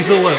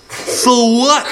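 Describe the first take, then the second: First: Said in the usual way. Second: Put-on high, cheeky sneer of a rude girl; rude girl retort. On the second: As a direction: toss it back like a bratty kid.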